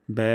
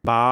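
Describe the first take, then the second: First: ব্যা said neither thin nor thick; middle-weight ব্যা; ব্যা with a medium front vowel. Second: বা with a thick open a like Bangla; the mistaken heavy বা; wrong broad ba. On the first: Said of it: "medium". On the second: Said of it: "উভয়টি ভুল". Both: Shown as a demonstration.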